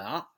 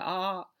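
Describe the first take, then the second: First: 啊 said short; short vowel. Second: 啊 held long; long vowel. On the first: Teacher shows pupils the short back vowel, 啊 said briefly. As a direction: cut 啊 off quickly. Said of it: "短啊". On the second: Teacher shows pupils the long back vowel, 啊 held long. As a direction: draw out 啊 as a steady back vowel. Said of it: "长元音啊". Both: Shown as a demonstration.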